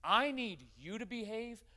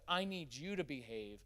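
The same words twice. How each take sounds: First: I pushed high and loud, slow; stern demand. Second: Said in the usual way. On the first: Shown as a demonstration. Father's hidden message to his son, said with a stern loud stress on I. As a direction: lean hard on I in I need you to behave, slowly. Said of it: "What I was really saying is this". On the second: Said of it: "instead of".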